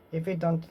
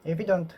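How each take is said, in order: Both takes have the same delivery.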